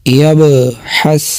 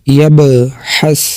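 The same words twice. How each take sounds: No difference in how they are said.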